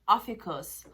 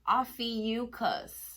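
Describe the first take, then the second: First: It sounds like 'Officus', with fewer sounds. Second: It sounds like 'Ophiuchus', with more sounds. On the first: The speaker calls it wrong. "I was pronouncing the word wrong" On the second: The speaker calls it right. "Is that better?"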